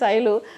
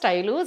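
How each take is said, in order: First: The name begins with an 'sh' sound. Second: The name begins with an 'st' sound. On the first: This is the speaker's real name. The speaker calls it right. "నా పేరు శైలు పలకటం easy" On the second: This is how an elderly relative said the name. The speaker calls it wrong. "ఆమెకి రాక స్టైలు"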